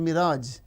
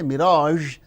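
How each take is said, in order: First: The final consonant is a 'z' sound. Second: The final consonant is a 'zh' sound. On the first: "So we replace with z" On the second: "we don't say mirage"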